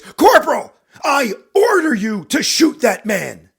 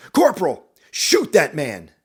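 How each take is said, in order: First: Very loud, high, drawn-out roar; furious shout. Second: Loud, slow firm order; shouted command. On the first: Captain repeating his order to the corporal, enraged. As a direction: bellow the order at full fury. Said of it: "even more anger in his voice". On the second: Captain shouting an order at the corporal, forceful. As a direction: shout the order, holding some anger back. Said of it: "He looks at you and shouts". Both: Acted.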